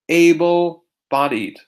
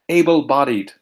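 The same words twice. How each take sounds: First: It is said slowly. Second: It is said quickly.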